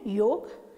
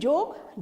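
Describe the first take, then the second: First: The word begins with a y sound. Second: The word begins with a j sound. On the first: The speaker calls it right. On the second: The speaker calls it wrong. "जोग नहीं है"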